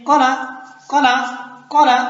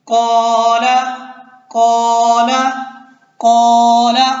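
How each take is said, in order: First: "कौला" said short, no stretch on "कौ"; short vowel. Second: "कौला" with "कौ" held long and loud; stretched vowel. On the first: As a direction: cut the first vowel of "कौला" brief. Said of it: "अगर अलिफ ना होता तो हम क्या कहते". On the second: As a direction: draw out the first vowel of "कौला" on a level note. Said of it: "अब अलिफ है तो कैसे पढ़ रहे हैं". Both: Shown as a demonstration.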